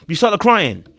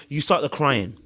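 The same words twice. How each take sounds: First: Louder and higher on you start the crying; emphatic repeat. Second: Said in the usual way. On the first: Real, not acted. Telling the contestant off, louder emphatic repeat. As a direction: hammer home start the crying. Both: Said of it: "repeated for emphasis".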